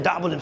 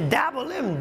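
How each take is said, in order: First: The name is said in a plain, flat way. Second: The name is said in a grand, emphatic way. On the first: The place sounds small and ordinary. The speaker calls it wrong. "Don't say Dabolim" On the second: The place sounds big and important. The speaker calls it right. "say Dabolim, big place"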